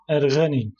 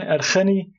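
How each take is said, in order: First: The middle consonant is a hard g sound. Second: The middle consonant is a rasping kh sound. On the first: The speaker calls it right. "em xeyê bikar nayînin ... em dibijin Erganî" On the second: The speaker calls it wrong. "Wekî din Erxenî dernakeve"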